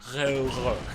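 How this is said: Said with a French R and many sounds dropped. "if it was actually French, it would be more like railroad"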